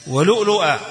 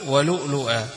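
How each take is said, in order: First: ولؤلؤا chanted high and loud, ending on a clear final a; recited reading. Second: Said in the usual way. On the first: Shown as a demonstration. Teacher demonstrates the reading to students, chanted high and loud. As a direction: sing out ولؤلؤا with full voice and a falling close. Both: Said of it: "يقرأها نافع وأبو جعفر وعاصم كله لؤلؤا".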